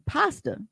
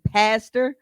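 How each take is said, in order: First: "pasta" with an open ah in the first syllable; pasta as misheard. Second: "pastor" with a short front a, PASS-ter; pastor as intended. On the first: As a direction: say "pasta" like the food, PAH-stuh. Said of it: "Steve thought that he was saying". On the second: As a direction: say "pastor" clearly, vowel as in pass. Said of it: "'cause of his African accent". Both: Shown as a demonstration.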